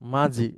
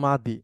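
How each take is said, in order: First: The middle consonant sounds like a z. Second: The middle consonant sounds like a d. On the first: The speaker calls it wrong. "দতকে বর্গীয় জ দিয়ে উচ্চারণ করা হয়" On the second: The speaker calls it right. "মূলত মাদি"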